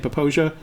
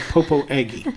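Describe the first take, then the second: First: The name ends with a soft 'zha' sound. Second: The name ends with a hard 'aggie' sound. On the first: "don't say Poposia" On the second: "say Popo Aggie"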